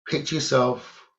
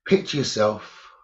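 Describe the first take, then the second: No difference in how they are said.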